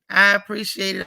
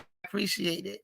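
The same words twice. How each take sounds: First: Said in the usual way. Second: Much softer, heartfelt echo; quiet sincere thanks; soft repeat. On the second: Real, not acted. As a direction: say it again almost under your breath. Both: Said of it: "I appreciate it repeated".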